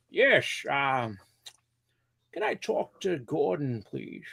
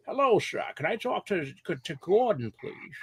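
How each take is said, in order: First: Mock caller in a training call; slow put-on caller voice. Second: Squeaky high caller voice, much higher; mock polite caller asking for Gordon; high put-on phone voice. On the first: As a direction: stretch it out like a goofy customer. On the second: Prank phone voice to coworker.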